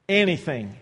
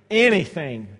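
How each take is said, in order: First: Said in the usual way. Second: "anything" repeated and punched louder. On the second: Acted. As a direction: hammer "anything" home the second time. Preacher repeats the word louder.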